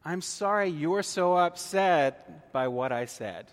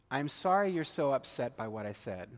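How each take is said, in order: First: Louder and slow, leaning on sorry; an insincere apology, spelled out slowly; slow emphatic non-apology. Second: Said in the usual way. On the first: Shown as a demonstration. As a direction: deliver the fake apology deliberately, a bit pointed. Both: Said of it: "What you say is".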